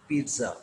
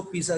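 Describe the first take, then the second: First: पिज़्ज़ा as "peet-sa", double Z as TS; TS pronunciation. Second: पिज़्ज़ा said the everyday local way, without a T; local pronunciation. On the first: Teacher corrects the local form for learners, TS pronunciation. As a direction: say पिज़्ज़ा with a ts in the middle. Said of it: "double जेड टी एस ए आवाज़ बनाता है". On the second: Teacher shows learners how we say it, local pronunciation. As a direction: say पिज़्ज़ा with a plain s or z sound in the middle. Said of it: "हम इसको पिज़्ज़ा कहते हैं". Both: Shown as a demonstration.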